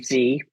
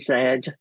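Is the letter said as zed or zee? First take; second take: zee; zed. First: The letter is said the American way, zee. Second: The letter is said the British way, zed.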